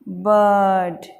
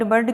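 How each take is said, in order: First: The vowel is long and drawn out. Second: The vowel is short and clipped. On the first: The speaker calls it right. "थोड़ा लंबा चलेगा" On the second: The speaker calls it wrong. "हम बर्ड बर्ड बर्ड करते रहते हैं, जबकि ये कितना गलत है।"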